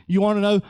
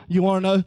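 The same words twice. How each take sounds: The two takes are said the same way.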